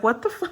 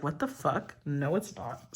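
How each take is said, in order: First: Higher, rising cut-off what the fu; a sudden startled gasp of disbelief; mock shock, cut off mid-word; shocked outburst. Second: Softer, flat-voiced what the fuck, muttered; under the breath, incredulous then dismissive; a quiet retort to herself; quiet disbelief. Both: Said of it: "And I was like".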